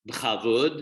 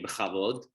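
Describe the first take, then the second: First: "bechavud" with the vav as a short u; Bukharian pronunciation. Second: "bechavud" with an open o in the last syllable, like "bechavod"; standard Hebrew pronunciation. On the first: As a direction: say "bechavud" ending in "-vud" instead of "-vod". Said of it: "the vav becomes more like a uh". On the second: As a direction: say "bechavud" as Hebrew "be-kha-VOD". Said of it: "but instead of saying". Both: Shown as a demonstration.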